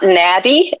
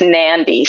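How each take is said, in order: First: The d follows the vowel with no n sound. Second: An n sound comes just before the d. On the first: The speaker calls it wrong. "it's not Nadi" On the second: The speaker calls it right. "it's Nandi. So there's a silent N"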